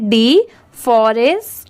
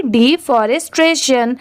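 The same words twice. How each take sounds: First: "डिफॉरेस्टेशन" slowly, part by part with pauses; broken into parts. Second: "डिफॉरेस्टेशन" as one word, without breaks; joined up. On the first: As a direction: teach "डिफॉरेस्टेशन" in separated chunks. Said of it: "तो देखिए इसे ऐसे पढ़ना है". ("डिफॉरेस्टेशन" को टुकड़ों में, रुक-रुककर) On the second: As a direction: run the parts of "डिफॉरेस्टेशन" together, still carefully. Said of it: "इसे स्पीड में पढ़ेंगे". ("डिफॉरेस्टेशन" को जोड़कर, बिना रुके) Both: Shown as a demonstration.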